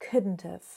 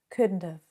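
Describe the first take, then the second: First: The T sound is weak and barely heard. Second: The same.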